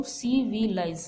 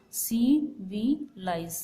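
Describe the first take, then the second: First: Said in the usual way. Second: "सी वी लाइज" slowly, in three separated beats; syllable by syllable. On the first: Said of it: "transcription यदि हम देखें". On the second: Shown as a demonstration. Teacher has students count vowel sounds, "सी वी लाइज" slowly broken into syllables. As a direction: pause after each syllable of "सी वी लाइज". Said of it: "इसमें vowel sound कितनी बार आ रही है".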